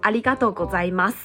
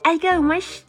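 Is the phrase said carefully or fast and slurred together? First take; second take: careful; slurred. First: Each syllable is said carefully with a Taiwanese accent. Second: The syllables are said fast and slurred together. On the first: The speaker calls it wrong. "虽然我知道好像有点台台的" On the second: The speaker calls it right. "都讲很快很顺，会变成一种像"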